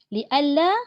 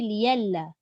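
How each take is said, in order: First: A glottal stop is kept mid-word. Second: A y sound replaces the glottal stop. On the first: This keeps the hamzah, as in the local reading. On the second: This is the reading of other imams.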